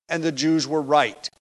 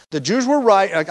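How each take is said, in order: First: Said in the usual way. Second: "were" pressed firm and louder; emphatic restatement. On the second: Shown as a demonstration. Preacher correcting himself, stressing "were" louder. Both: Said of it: "I phrased it backwards".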